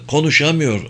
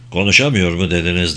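First: Said in the usual way. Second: Lower, puzzled doctor asking; surprised. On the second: A narrator's reading. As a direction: echo the word in surprise. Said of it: "diye sordu Şekt şaşkınca". (şaşkınca sorarak)

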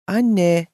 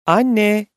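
First: Higher, louder, frowning address to mom. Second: Loud, higher-pitched call into the house. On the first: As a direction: say it with a puzzled frown. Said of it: "dedi kaşlarını çatarak". (kaşlarını çatarak) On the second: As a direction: call out for mom. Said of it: "diye seslendi". (seslenerek, yüksek sesle) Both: A narrator's reading.

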